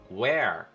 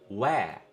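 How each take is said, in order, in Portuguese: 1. O R final é bem enrolado e pronunciado. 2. O R final é apagado e não é pronunciado. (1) "inglês americano, onde o R é mais enrolado" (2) "No inglês britânico, não. A gente não enrola esse R no final"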